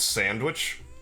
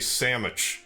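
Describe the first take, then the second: First: The word is said in its standard form. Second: The word is said in a casual, altered way. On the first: The speaker calls it right. "I know it's sandwich" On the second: The speaker calls it wrong. "words they deliberately mispronounce"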